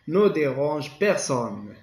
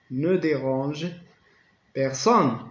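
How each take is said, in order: First: Slow, Ne dérange personne spelled out; slow classroom dictation. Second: Personne hit louder and falling; stress on personne. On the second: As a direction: punch personne at the end. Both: Shown as a demonstration.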